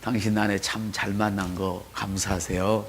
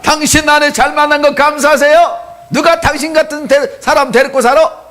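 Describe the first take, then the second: First: Softly and slowly, lower, a first run-through of 당신 아내 참 잘 만난 거 감사하세요; quiet slow reading. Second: Much higher and louder, 당신 아내 잘 만난 거 감사하세요 belted out; loud teasing shout. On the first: Pastor models the line for the congregation, quiet and slow. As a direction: murmur it gently before the real go. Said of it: "우리 옆 사람한테". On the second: Pastor leads the congregation, bellowing a teasing rebuke. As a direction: shout it at the neighbour with playful scolding. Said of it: "시작". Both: Shown as a demonstration.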